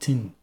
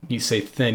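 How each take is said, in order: First: The word begins with a hard 't' sound. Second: The word begins with a soft 'th' sound.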